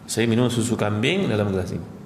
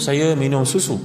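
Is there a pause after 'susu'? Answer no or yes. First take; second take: no; yes. First: It flows without a pause after susu. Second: There is a pause right after susu. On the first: Goat's milk is drunk from this glass. The speaker calls it right. "ini ayat yang betul" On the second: The goat is inside the glass. The speaker calls it wrong. "kalau kita berhenti pada susu"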